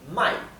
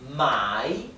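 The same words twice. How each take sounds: First: The pitch does not fall and then rise. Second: The pitch falls and then rises. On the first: It means to sell. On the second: It means to buy.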